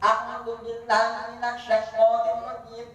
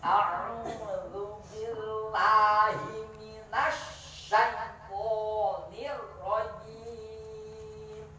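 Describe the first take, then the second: First: It is recited at a faster pace. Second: It is recited very slowly and carefully. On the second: "Itu apa? Tahqiq"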